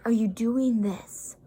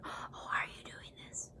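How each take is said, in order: First: "Are you doing this?" said slowly, every word spelled out; slow clear repeat. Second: Very soft whispered question; barely audible mock whisper; imitated whisper. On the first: Retold or imitated. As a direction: drag out "doing this" so he can hear. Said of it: "I said". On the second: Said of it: "He is whispering".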